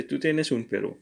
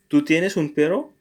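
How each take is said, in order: First: Said in the usual way. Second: Rising at the end on perro; perro lifted up as a question; question intonation. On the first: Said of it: "but you can just say". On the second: Shown as a demonstration. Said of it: "that was a question".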